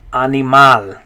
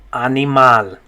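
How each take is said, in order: Both takes have the same delivery.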